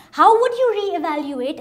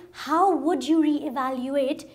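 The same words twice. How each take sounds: First: "you" lifted high and loud; emphatic question, punching "you"; stress on YOU. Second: "how" leads, then the question settles; measured question, leaning on "how"; stress on HOW. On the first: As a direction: lean hard on "you" in the question. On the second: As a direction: put the weight on "how", easing off afterwards. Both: Acted. Rhetorical question repeated with shifted stress.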